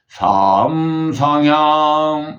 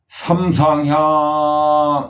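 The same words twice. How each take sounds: First: The first syllable has a non-level tone. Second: The first syllable has a level tone. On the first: The speaker calls it wrong. "이렇게 그 이야기 발음을 하시면은 안 됩니다" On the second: The speaker calls it right. "삼의 삼은 평이니까 삼상향 이렇게 이야기해야 되는데"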